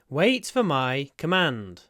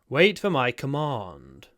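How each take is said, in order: First: It is said in a northern English accent. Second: It is said in a southern English accent.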